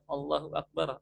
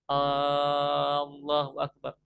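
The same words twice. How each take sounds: First: The opening vowel of Allah is short. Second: The opening vowel of Allah is drawn out long. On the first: It states that God is the greatest. The speaker calls it right. "yang seharusnya kita mengucapkan Allahu Akbar" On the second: It asks whether God is the greatest. The speaker calls it wrong. "Kalau kita memanjangkan hamzah pada lafaz Allah"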